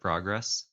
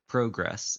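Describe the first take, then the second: First: It is said with a non-Canadian pronunciation. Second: It is said with a Canadian pronunciation. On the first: "instead of progress" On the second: "certain words that, and like progress"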